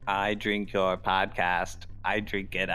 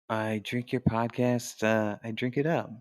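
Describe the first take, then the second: First: The voice is mechanical and evenly clipped. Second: The voice is lively with varied pitch. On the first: "now that's just robotic. That's not monotone" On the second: "That had too much character"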